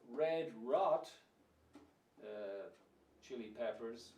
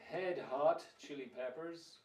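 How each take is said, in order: First: Both words start with an R sound. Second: Both words start with an H sound. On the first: It means something red that went bad. "Or you could have Red Rot" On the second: It means a hot head. "Some people might say Head Hot Chili Peppers"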